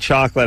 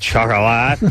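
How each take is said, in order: First: The word has its usual English pronunciation. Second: The word is said with a foreign pronunciation. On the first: The speaker calls it right. "if they had called it chocolate, I might" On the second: The speaker calls it wrong. "mispronounce chocolate"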